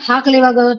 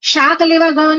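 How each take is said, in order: First: The first word begins with an h sound. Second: The first word begins with an s sound.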